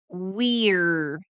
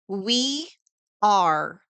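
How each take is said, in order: First: The two words merge into one syllable. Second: Both words are said in full.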